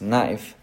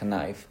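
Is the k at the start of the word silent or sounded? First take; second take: silent; sounded. First: The k at the start is silent. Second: The k at the start is sounded. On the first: The speaker calls it right. "Kind of like K in knife" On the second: The speaker calls it wrong. "It's not knife"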